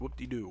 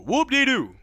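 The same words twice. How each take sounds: First: Said in the usual way. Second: High, loud mock celebration; a loud sarcastic hooray; sarcastic whoop. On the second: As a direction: cheer it up high with fake glee. Mock cheer repeated.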